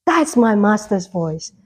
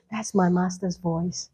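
First: "That's" stressed, slow and full-voiced; firm recognition. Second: Much softer, lower aside; hushed recognition. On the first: Believer repeating it with certainty, firm stress on "That's". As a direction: land firmly on "That's", unhurried. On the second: Acted. Believer recognising the Lord's voice, hushed. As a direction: say it softly, as if just knowing it.

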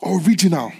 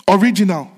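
First: Whispered. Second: Original called out loud and high. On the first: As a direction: whisper the word Original. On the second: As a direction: proclaim Original at full voice. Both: Shown as a demonstration.

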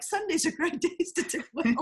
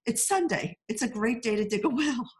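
First: High teasing voice breaking into a laugh. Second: High-pitched, earnest folksy voice; a movie villager's odd advice, said earnestly; quaint Irish saying. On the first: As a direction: tease the father-in-law with his own saying. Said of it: "I'm gonna be like". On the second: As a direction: deliver it like sage village wisdom. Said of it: "So one guy says". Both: Retold or imitated.

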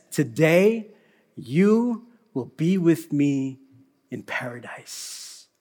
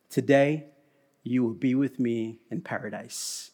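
First: Slower, hushed today you will be with me; slow tender promise. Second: Plain. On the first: Jesus promising the criminal, slow and tender. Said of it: "And Jesus says". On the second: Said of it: "and he says". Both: Retold or imitated.

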